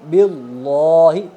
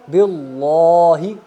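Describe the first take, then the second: The two takes are said the same way.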